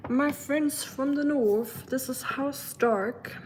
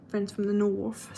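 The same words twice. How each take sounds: First: Hammed-up British accent, high and slow; a grand Game of Thrones greeting in a bad British accent. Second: Said in the usual way. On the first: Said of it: "that's the worst British accent ever". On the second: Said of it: "sounds like I'm in Game of Thrones".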